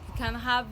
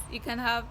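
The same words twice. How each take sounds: The two takes are said the same way.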